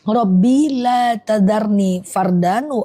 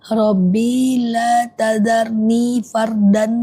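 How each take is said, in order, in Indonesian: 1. Frasa itu diucapkan cepat. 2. Frasa itu diucapkan lambat. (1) "kecepetan, kecepetan" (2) "aku pelan-pelan ya"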